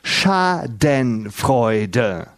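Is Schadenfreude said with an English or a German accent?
German. The word is said with a German accent. The speaker calls it right. "das heißt Schadenfreude"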